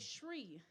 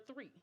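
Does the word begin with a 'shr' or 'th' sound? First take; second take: shr; th. First: The word begins with a 'shr' sound. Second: The word begins with a 'th' sound.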